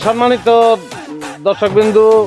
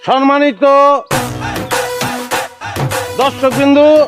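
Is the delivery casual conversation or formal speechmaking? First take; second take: casual; formal. First: It is spoken like ordinary casual conversation. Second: It is declaimed like a formal public speech. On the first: The speaker calls it right. "কথা করতেছি এমন করে লইব" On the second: The speaker calls it wrong. "বক্তৃতা"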